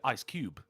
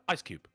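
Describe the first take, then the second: First: The stress is on Cube. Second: The stress is on Ice.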